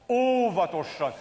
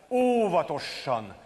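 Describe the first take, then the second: Both takes have the same delivery.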